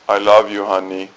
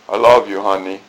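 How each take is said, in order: First: It is said in a flat monotone. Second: It is said with lively, varied pitch.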